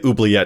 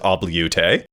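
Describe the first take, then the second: First: The word is said in its standard form. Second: The word is said in a garbled form.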